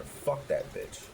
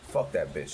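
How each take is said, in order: First: Slow, higher, whispered fuck that bitch; whispered vow. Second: Said in the usual way. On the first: Retold or imitated. Vowing to prove counselor wrong, slow whisper. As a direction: hiss fuck that bitch under your breath, slowly.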